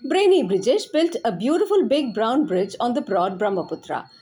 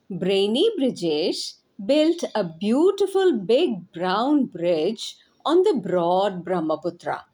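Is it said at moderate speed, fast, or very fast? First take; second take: very fast; moderate. First: It is said very fast. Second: It is said at a moderate speed.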